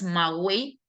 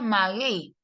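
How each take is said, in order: First: The u is sounded, giving three vowels together. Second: The u is silent, giving two vowels together. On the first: The speaker calls it wrong. "formando triptongo si dijeras maguey" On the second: The speaker calls it right. "sería maguey para que sea el caso de un diptongo"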